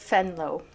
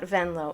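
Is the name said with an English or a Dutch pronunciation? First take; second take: Dutch; English. First: The name is said with Dutch-style sounds. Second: The name is said with English-style sounds. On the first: The speaker calls it right. "it's Venlo. Yeah, it's Dutch" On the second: The speaker calls it wrong. "It's not Venlo"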